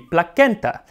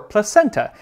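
First: The C is said as a hard K sound. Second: The C is said as a soft S sound. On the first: "a C was always pronounced as a K in Old Latin" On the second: "with a soft C just like we say Caesar"

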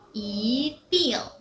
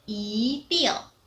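Both takes have the same delivery.

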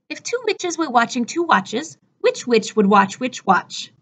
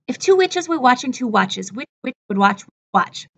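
First: The sentence is said at a fast pace. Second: The sentence is said at a very fast pace. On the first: "A little bit faster" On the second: "As fast as I can"

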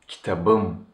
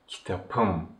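First: The consonant before the ending is a voiced b. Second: The consonant before the ending is a voiceless p. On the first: The speaker calls it right. "kitabım is much easier" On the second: The speaker calls it wrong. "than saying kitapım"

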